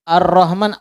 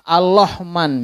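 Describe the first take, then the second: First: The word is said with an r sound. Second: The r sound is replaced by an l sound.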